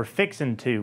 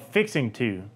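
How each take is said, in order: First: "fixin' to" ending in a plain n; casual "fixin' to" with an -in ending; dropped-g "fixin' to". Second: "fixing to" with the ending fully sounded; "fixing to", each word distinct; full form "fixing to". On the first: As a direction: drop the g in "fixin' to". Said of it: "or fixin' to". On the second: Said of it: "a phrase called fixing to". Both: Shown as a demonstration.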